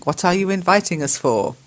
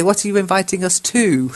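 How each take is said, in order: First: Said in the usual way. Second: "to" made prominent at the end; stress on TO. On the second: Shown as a demonstration. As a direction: correct it by landing on "to". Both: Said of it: "I'd say".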